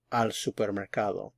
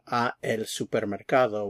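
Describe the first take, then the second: First: "al supermercado" with "al" run together as one word; contracted al. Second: "a el supermercado" with "a" and "el" kept apart; uncontracted form. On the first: Teacher shows the correct contracted form. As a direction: blend into a single "al". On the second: Teacher shows the form students should avoid. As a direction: say "a el" as two separate words. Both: Shown as a demonstration. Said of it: "we simply say".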